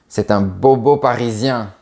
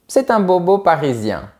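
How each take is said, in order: First: It sounds disapproving and negative. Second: It sounds approving and positive.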